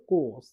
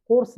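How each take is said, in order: First: কোর্স with no r; silent R. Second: কোর্স with the r sounded; R pronounced. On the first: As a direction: say কোর্স with a long vowel straight into s. (র বাদ দিয়ে কোর্স) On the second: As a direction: say কোর্স with r before the s. (র উচ্চারণ করে কোর্স) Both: Shown as a demonstration. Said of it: "আর এর উচ্চারণ হবে না".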